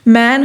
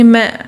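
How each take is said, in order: First: The final n is fully pronounced. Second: The final n is dropped, leaving a nasal vowel. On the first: "मैन होगा" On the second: "उसे बोलेंगे मैं"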